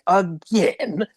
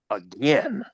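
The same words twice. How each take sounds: First: It is said in a silly, exaggerated way. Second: It is said in a more serious, restrained way. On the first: "he didn't sound quite as silly as he did in Dragon Quest three's dub" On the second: "seems a little more serious"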